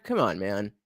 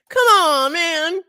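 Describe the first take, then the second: First: Said in the usual way. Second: High, loud, drawn-out wail; hammed-up protest. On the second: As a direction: wail it at the broken stream. Exaggerated protest at streaming failure.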